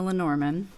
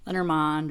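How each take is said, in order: First: Lenormand with a reduced last syllable, "luh-NOR-mun"; anglicised pronunciation. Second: Lenormand with an open last syllable, "lenner-MOND"; alternative pronunciation. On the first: Tarot reader introducing the card deck, anglicised Lenormand ending in "mun". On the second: Tarot reader offering another way to say it, Lenormand ending in "mond". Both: Shown as a demonstration. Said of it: "or however you wanna say it".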